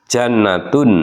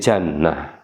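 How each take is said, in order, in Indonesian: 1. Kata ini berakhir dengan suku kata 'tun' yang penuh. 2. Kata ini berakhir dengan bunyi 'h' yang terhenti. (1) "yang berharokat lumah tain" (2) "menjadi hak sukun"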